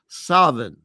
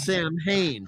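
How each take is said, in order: First: It is said like 'Savin', with a v. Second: It is said as anglicized 'Sam Hain'. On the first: "in some rare areas of Ireland, it's pronounced"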